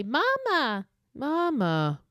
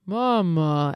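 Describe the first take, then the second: First: High, eerie, otherworldly mama; a warped ghostly child's call; creepy doll call. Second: Louder, warping as it dies; the call collapsing into distortion; distorted dying call. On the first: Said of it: "it, like, dies and distorts". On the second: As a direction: let the call break up and die. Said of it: "dies and distorts as it's dying". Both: Retold or imitated.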